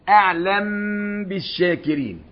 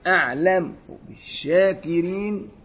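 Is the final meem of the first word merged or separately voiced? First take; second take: merged; separately voiced. First: The meem merges smoothly into the following b sound. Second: The meem carries a faint vowel before the b. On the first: The speaker calls it right. "لما نقول أعلم بالشاكرين" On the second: The speaker calls it wrong. "يتوهم السامع إن فيه ميمين، ميم مدغمة وميم إيه فاروم"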